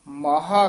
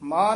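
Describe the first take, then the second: First: The word ends with a full vowel after h. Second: The word ends on the h without a vowel. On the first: The speaker calls it right. "12 ਮਾਹਾ ਕਹਿਣਾ" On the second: The speaker calls it wrong. "ਇਹਨੂੰ ਮਾਹ ਨਹੀਂ ਕਹਿ ਦੇਣਾ"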